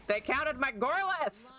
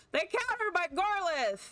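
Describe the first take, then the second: First: Raised-pitch disbelief; aggrieved, higher-pitched protest; indignant complaint. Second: Very high indignant cry; aggrieved squeal of disbelief; outraged wail. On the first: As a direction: protest it, voice climbing. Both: Real, not acted. Upset at losing his card.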